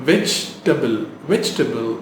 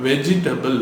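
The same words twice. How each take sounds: First: வெஜிடபிள் as VEJ-tuh-bul, no middle i; correct pronunciation. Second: வெஜிடபிள் as ve-ji-TA-bul, four syllables; mispronounced vegetable. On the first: Teacher showing the right way, correct pronunciation. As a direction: say வெஜிடபிள் in three syllables. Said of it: "கரெக்டா எப்படி pronounce". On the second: Teacher quoting the spelling-based error, mispronounced. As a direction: say வெஜிடபிள் with every written vowel. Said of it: "Which is wrong". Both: Shown as a demonstration.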